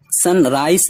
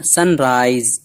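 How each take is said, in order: First: सनराइज ending in a voiceless s, "sun-rice"; wrong final s. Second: सनराइज ending in a voiced z; correct final z. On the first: Teacher warning of a misreading, सनराइज ending in s. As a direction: end सनराइज on s, as a mistake. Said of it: "सनराइज नहीं पढ़ना है". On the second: Teacher correcting the SE ending, सनराइज with z. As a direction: buzz the end of सनराइज as z. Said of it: "इसको SE है तो". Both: Shown as a demonstration.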